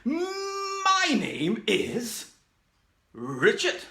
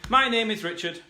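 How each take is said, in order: First: It is said in a cartoon character voice. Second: It is said in a plain, ordinary voice.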